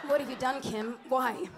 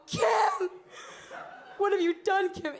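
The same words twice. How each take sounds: First: Restrained, romantic stage lament. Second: High, loud melodramatic wail; anguished stage cry. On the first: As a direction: plead tenderly, lightly acted. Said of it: "be romantic". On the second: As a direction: cry out over the body, hammed up. Acts castmate crying over the body. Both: Retold or imitated.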